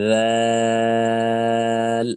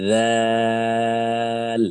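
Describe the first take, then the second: No difference in how they are said.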